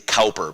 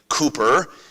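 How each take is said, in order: First: The name is pronounced the American way, as spelled. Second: The name is pronounced the British way. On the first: "in American English, we might say Cowper, because that's what it looks like" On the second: "in the British pronunciation"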